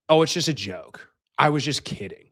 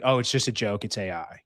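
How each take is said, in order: First: Lightly mimicked girlfriend's excuse; mocking excuse. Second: Said in the usual way. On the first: Girlfriend owning up to her prank, lightly mocked.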